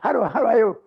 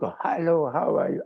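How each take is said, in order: First: The phrase is said quickly. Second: The phrase is said slowly. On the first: The speaker calls it right. "this I must speak quickly" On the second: The speaker calls it wrong.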